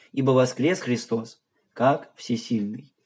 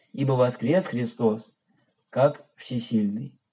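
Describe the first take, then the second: No difference in how they are said.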